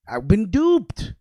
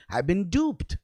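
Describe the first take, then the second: First: Slower and louder, duped leaned on hard; emphatic repeat. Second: Said in the usual way. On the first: Real, not acted. Realizing school lied to him, slow, louder repeat of duped. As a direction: drive the word duped home slowly.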